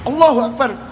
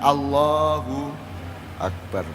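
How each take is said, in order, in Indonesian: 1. Diucapkan dengan keras, seperti menantang. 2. Diucapkan dengan lembut, dari dalam hati, penuh renungan. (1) "Ini nantang gelut aja apa ini?" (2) "Kontemplatif, merenung"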